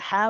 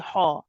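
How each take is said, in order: First: The consonant is light, without a heavy quality. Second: The consonant is heavy, with a darkened quality. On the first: The speaker calls it right. "the ha needs to be light" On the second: The speaker calls it wrong. "We don't say ha"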